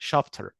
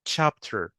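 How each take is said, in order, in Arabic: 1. تبدأ بصوت 'sh' ناعم. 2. تبدأ بصوت 'ch' حاد. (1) "احنا كعرب احيانا بننطقها chapter" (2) "لا هي المفروض تبقى تش ساوند"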